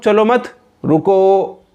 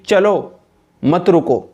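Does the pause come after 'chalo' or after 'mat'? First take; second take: after mat; after chalo. First: There is a pause after 'mat'. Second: There is a pause after 'chalo'.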